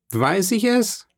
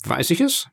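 First: Much higher, innocently evasive question; evasive shrug. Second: High, mock-innocent question; feigned astonishment. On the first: Danglars evading Caderousse about Fernand, high evasive shrug. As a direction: toss it off as if you couldn't know. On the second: Danglars feigning ignorance to Caderousse, high mock innocence. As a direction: play dumb, eyebrows raised in the voice. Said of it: "der den Erstaunten spielte". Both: A narrator's reading.

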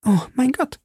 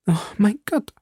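First: High, startled cry of alarm; high frightened outcry. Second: High, sighing lament; hopeless sigh; despairing sigh. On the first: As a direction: gasp it out in sudden fear. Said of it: "rief Madame Bonacieux". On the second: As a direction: let it sink out of her in despair. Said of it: "seufzte Madame Bonacieux". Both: A narrator's reading.

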